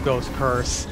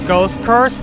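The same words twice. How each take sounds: First: Said in the usual way. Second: Raging gamer. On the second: Real, not acted. Taunting another player in-game.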